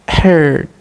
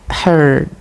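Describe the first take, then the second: Both takes have the same delivery.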